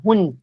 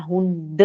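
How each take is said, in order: First: Hund ending in a crisp T sound; correct final T. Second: Hund ending in a voiced "duh"; wrong final D. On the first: Teacher modelling German for students, final T sound. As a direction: say Hund with the D devoiced to T. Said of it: "a gente fala Hund". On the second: Teacher showing the mistake to avoid, voiced final D. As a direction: say Hund with a vowel after the D. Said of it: "a gente não fala Hund". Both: Shown as a demonstration.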